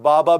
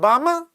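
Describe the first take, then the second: First: The word is said with normal oral resonance. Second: The word is said with heavy nasal resonance. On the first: This is the sound the child intends. "He said Baba" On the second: Air leaks through the nose because of a cleft palate. "Nose got more dominant in the voice. Hypernasality"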